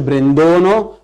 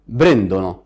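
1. النبر على المقطع الثاني. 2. النبر على المقطع الأول. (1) "ما اقولش بريندونو" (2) "بقول بريندونو"

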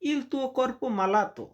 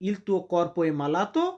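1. এটা সাধারণ বিবৃতির সুরে বলা হয়। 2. এটা প্রশ্ন করার সুরে বলা হয়। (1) "তোমার শরীর অসুস্থ" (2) "আমি আপনাকে জিজ্ঞাসা করতেছি"

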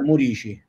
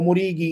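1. L'ultima sillaba inizia con un suono ch dolce. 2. L'ultima sillaba inizia con un suono k duro. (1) "in realtà la pronuncia è Murici" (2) "io pure lo chiamavo Murichi"

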